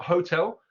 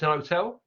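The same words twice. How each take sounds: First: Said in the usual way. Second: Hotel with the H dropped, otel. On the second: Shown as a demonstration. Teacher showing Cockney hotel without the H. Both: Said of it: "not hotel".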